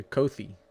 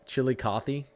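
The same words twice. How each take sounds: First: Coffee said as KOH-thee; long O and a TH in Coffee; alternative pronunciation. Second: Chili Coffee said as chilly-KAH-thee; guessed pronunciation. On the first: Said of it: "That's the hard part". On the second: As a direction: open AH and a TH in Coffee, rising tune. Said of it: "I'm gonna call it". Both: Shown as a demonstration.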